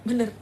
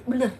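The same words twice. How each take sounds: The two takes are said the same way.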